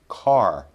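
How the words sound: American accent, with the r sound. "We want the standard American sound"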